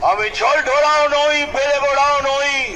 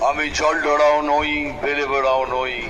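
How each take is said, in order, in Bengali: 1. লাইনটি জোরে ও জোর দিয়ে বলা হয়। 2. লাইনটি স্বাভাবিক, একটু আস্তে গলায় বলা হয়।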